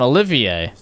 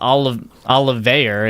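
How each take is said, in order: First: The final R is not pronounced. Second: The final R is pronounced. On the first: The speaker calls it right. "That's his name, Olivier" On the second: The speaker calls it wrong. "it's not Olive Olivier. It's like a sil it's a silent R"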